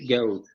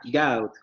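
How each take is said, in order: First: Standard accent, with a less open first vowel. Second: Cockney accent, with a very open first vowel. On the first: "en lugar de decir" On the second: "Con esta vocal muy abierta"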